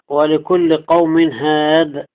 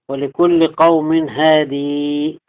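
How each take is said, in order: First: The final word stops on d, no vowel. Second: The final word ends with a long ee.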